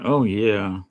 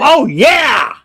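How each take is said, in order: First: It is said flatly, without enthusiasm. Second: It is said brightly, with enthusiasm.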